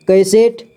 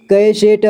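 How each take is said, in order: First: Said in the usual way. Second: कैसेट split as कै, से, ट; syllable by syllable. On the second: Shown as a demonstration. Teacher showing learners कैसेट, sounded out in parts. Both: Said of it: "इसे पढ़ेंगे".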